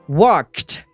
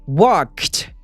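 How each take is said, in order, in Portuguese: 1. O final é som de "t". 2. O final é som de "t".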